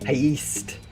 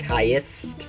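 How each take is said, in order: First: The ending sounds like 'geist'. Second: The ending sounds like 'est', stressed. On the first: "Pronouncing it like east, so like heist, like it is in the like Poltergeist" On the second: "more emphasis on the E at the end"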